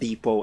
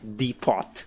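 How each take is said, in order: First: The word is not pronounced as it is spelled. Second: The word is pronounced as it is spelled. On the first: The speaker calls it right. "that word is said depot" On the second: The speaker calls it wrong. "and not depot"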